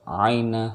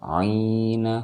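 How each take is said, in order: First: "aina" as a brief 'ai glide plus na; short diphthong. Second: "aina" said as 'iina, with a long held i; long vowel. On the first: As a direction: chant "aina" without stretching it. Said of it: "jangan dibaca panjang". ("aina" dibaca 'ai-na, tidak panjang) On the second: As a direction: open on a stretched "ii" for "aina". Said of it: "baca panjang dan ini". ("aina" dibaca 'iina, panjang) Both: Shown as a demonstration.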